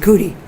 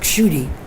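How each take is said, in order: First: The name is said with Bengali pronunciation. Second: The name is said with Sanskrit pronunciation. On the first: "in Bengali they say" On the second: "my name in Sanskrit is pronounced"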